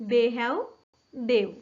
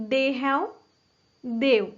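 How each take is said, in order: No difference in how they are said.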